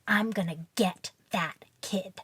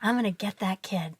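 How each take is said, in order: First: The tone sounds cranky and adversarial. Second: The tone sounds warm and encouraging. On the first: The speaker means to get back at the child. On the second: The speaker means to reach and engage the child.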